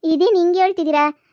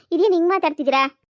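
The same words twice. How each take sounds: First: Louder, higher shocked cry; stunned woman jilted by the man she trusted; shocked outburst. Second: Said in the usual way. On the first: Acted. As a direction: blurt it out in disbelief.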